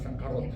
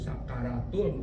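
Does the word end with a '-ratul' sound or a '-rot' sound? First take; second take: -rot; -ratul. First: The word ends with an 'o' vowel and '-t'. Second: The word ends with an 'a' vowel and '-tul'. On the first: The speaker calls it wrong. "bukan sakarot" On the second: The speaker calls it right.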